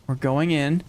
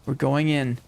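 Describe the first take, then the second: No difference in how they are said.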